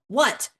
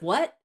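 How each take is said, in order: First: It is said sharply, with irritation. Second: It is said gently, with calm. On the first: The speaker is emotionally overburdened. The speaker calls it wrong. "I was frustrated over something" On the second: The speaker is composed and open. The speaker calls it right. "just a calm what"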